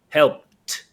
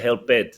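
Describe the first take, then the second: First: The word ends with a short t sound. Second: The word ends with an extra 'id' syllable. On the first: The speaker calls it right. "imagine there's a T" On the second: The speaker calls it wrong. "Don't say help it, no"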